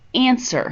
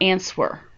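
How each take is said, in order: First: The word is said with no W sound. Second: The word is said with a W sound. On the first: The speaker calls it right. "it is answer" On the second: The speaker calls it wrong. "not answer. You don't pronounce the W in answer"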